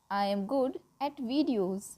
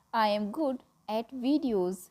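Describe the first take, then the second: No difference in how they are said.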